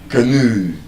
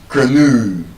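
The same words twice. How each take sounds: First: The stress is on the second syllable. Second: The same.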